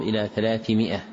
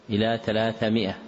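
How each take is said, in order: First: "ثلاثمائة" with an i after the second th; correct kasra. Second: "ثلاثمائة" with an a after the second th; wrong fatha. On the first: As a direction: say "ثلاثمائة" as thalāthi-mi'a. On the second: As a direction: say "ثلاثمائة" as thalātha-mi'a. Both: Shown as a demonstration. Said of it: "بكسر الثاء لا بفتحها".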